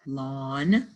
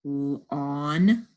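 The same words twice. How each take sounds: First: Said in the usual way. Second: Lawn split into l and a long awn; sounded out. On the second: Shown as a demonstration. Teacher decoding for the class, lawn sounded out. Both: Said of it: "words we just sounded out".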